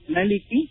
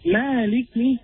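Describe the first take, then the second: First: The first vowel is kept short. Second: The first vowel is drawn out long. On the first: "Sometimes we hear maliki" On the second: "even though we don't find an alif, understand that this is a magic"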